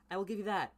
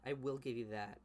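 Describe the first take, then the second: First: High, loud mock concession; grudging concession. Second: Said in the usual way. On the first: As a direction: concede it with an eye-roll. Grudging concession, then plain.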